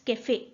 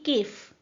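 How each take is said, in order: First: The final e is pronounced. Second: The final e is silent. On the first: The word is written with the accent mark. "When we add this sign it becomes कैफे" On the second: The word is written without the accent mark. "Most probably इसकी प्रोनाउंसिएशन होती केफ"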